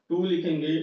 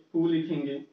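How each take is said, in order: Both takes have the same delivery.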